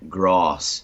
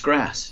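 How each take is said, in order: First: The word has a broad British-style a vowel. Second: The word has a flat American a vowel. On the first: It sounds affected to an American speaker. "in southwestern Ohio, we would never say grass" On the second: It is the speaker's natural way of saying it. "It's a banana and it's grass"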